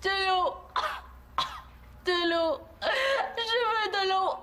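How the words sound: It sounds weak and dying.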